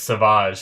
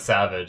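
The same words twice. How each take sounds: First: The word is pronounced in an unusual, non-English way. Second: The word is pronounced the ordinary English way. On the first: This is how the show pronounces the name. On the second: This is the normal pronunciation of the word.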